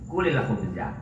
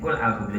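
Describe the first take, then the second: First: Kul is linked to the next word by an i vowel. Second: Kul is said without a linking i vowel. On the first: The speaker calls it right. "hurika bil kasri" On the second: The speaker calls it wrong.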